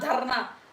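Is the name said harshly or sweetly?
harshly. The name is said harshly, like an ugly name.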